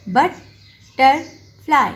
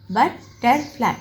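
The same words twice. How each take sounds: First: बटरफ्लाई slow and loud, बट ... टर ... फ्लाई; long pauses between the three pieces of बटरफ्लाई; syllable by syllable. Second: बटरफ्लाई as बट, टर, फ्लाई with short gaps; quicker three-beat बटरफ्लाई; lightly separated syllables. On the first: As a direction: dictate बटरफ्लाई in three firm, isolated beats. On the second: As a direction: say बटरफ्लाई in three closely spaced pieces. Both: Shown as a demonstration. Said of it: "दरमियान में dots लगाने हैं".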